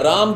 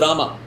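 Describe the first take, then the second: First: The name ends on the consonant m. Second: An extra vowel is added after the m. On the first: The speaker calls it right. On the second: The speaker calls it wrong.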